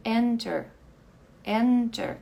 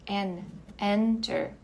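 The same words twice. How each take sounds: First: Enter with EN loud and strong; ênfase em EN de enter; stress on EN. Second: En split off then enter, slowly; stress on EN, slowly. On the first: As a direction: punch the first syllable of enter. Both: Shown as a demonstration. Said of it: "Essa daqui é a sílaba mais forte".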